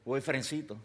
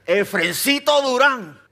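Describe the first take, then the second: First: Said in the usual way. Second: Mother's warning, full name called out slow, high and loud; stern full name. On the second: Retold or imitated. Mother switches to a warning tone, stern full name. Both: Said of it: "Lucy cambió el tono".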